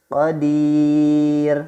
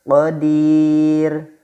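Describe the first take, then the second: Both takes have the same delivery.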